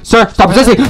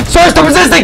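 First: Loud, higher barked cop order; cop command. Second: Much higher, louder strained shout; frantic cop yell. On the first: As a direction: order the suspect to stop, loud but held. Cop yelling at suspect in RP. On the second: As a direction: scream the order as he pulls away. Cop yelling, escalating. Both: Pretend.

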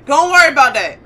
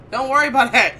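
First: Much louder, pitched up, stressing worry; loud nervous brush-off; louder insistence. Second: Said in the usual way. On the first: Real, not acted. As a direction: say it again, firmer and loud. Repeats it, louder.

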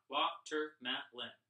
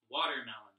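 First: "Watermelon" slowed into four separate sounds; syllable by syllable. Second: Said in the usual way. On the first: Shown as a demonstration. Teacher helping pupils count sounds in "Watermelon", slowly syllable by syllable. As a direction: split "Watermelon" evenly, a small gap after each syllable. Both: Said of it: "How many sounds do you count?".

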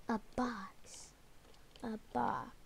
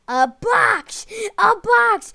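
First: Breathy whisper of realization. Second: High, loud excited yell; excited shout. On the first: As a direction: whisper it under your breath. Learns the hiding spot. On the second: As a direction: shout it out in triumph. Excited at the revelation. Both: Real, not acted.

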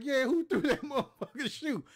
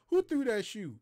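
First: High, loud echo broken by a laugh; the teen mocking the sergeant's question, laughing; laughing mock shout. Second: Loud, high demanding shout; the sergeant, hit by a shoe, demanding who threw it; angry sergeant shout. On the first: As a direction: throw his question back, cracking up. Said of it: "I was like". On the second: Retold or imitated. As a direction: bellow it at the whole line. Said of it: "And he was like".

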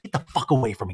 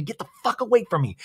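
First: Said in the usual way. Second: High, fast, frantic repeat; hammed-up panic at its peak; fast high-pitched mock fury; mock screaming. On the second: Repeated line escalates.

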